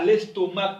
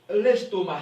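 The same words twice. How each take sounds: First: The final C sound is pronounced. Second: The final C sound is silent. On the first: The speaker calls it wrong. "On ne dit pas l'estomac en français" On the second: The speaker calls it right. "On dit l'estomac. ... C'est ne se prononce pas"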